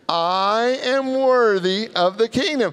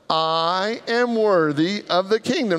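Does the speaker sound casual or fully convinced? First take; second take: convinced; casual. First: It is said forcefully, with strong conviction. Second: It is said plainly, without strong conviction.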